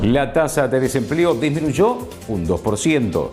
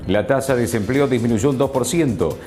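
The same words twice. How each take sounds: First: It is read with emphasis on key phrases. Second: It is read flatly with no emphasis.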